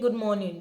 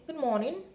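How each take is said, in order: First: It is said in a plain everyday accent. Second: It is said in a put-on posh accent. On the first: "Instead of greeting normal good morning" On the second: "you are speaking phone English. Just change that your accent small"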